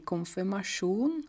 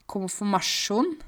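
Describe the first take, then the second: First: Said in the usual way. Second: KONFIRMASJON slow, as komfu-masjon; broad dialect KONFIRMASJON with reduced middle syllable; dialect pronunciation. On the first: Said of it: "ikke konfirmasjon". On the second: Shown as a demonstration. Teacher showing home form, broad dialect KONFIRMASJON. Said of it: "Vi sier".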